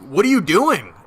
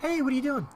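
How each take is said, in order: First: It sounds curt and rude. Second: It sounds warm and friendly.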